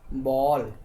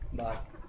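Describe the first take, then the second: First: The vowel falls between 'aa' and 'o'. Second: The vowel is a clear open 'aa' sound. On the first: The speaker calls it right. "इसको ये दोनों के बीच में बोलते हैं, ना तो बा ना तो बॉल" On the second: The speaker calls it wrong. "बहुत सारे बच्चे इसको पढ़ते हैं ऐसा"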